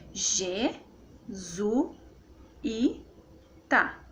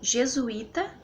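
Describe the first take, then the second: First: "G, Zu, I, tá" as four separate syllables. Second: Said in the usual way. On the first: Shown as a demonstration. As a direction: pause after each of G, Zu, I, tá. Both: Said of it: "Então fica assim".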